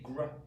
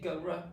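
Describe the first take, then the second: First: The two sounds are blended into one cluster. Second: The two sounds are said separately with a break. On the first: The speaker calls it right. "we just say gr. So gr, we're blending them" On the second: The speaker calls it wrong. "We don't say g, r"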